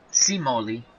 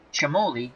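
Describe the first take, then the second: First: The name begins without a ch sound. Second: The name begins with a ch sound. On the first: This is the Americanized pronunciation. "the American version" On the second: This is the original Italian pronunciation. "in Italian, the C I is Ch. So Gino Cimoli"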